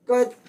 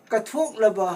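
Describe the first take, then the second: First: ꯀꯠꯊꯣꯛꯂꯕ in separate syllables with long pauses between. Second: Said in the usual way. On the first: Shown as a demonstration. Teacher splits word into syllables. (ꯀꯠꯊꯣꯛꯂꯕ ꯈꯣꯟꯊꯣꯛ ꯈꯨꯗꯤꯡ ꯇꯣꯉꯥꯟꯅ ꯇꯞꯅ ꯍꯥꯏꯕ)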